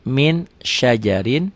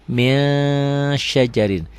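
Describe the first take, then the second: First: Said in the usual way. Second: "Min" read as a long humming "ming" before "syajarin"; sung, stretch the nasal ng in "Min", then say "syajarin"; held ikhfa hum. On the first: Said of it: "Min ditulisnya". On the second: Shown as a demonstration. Sung, teacher shows N plus held G, "Min" as long "ming". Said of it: "dibacanya jadi ming".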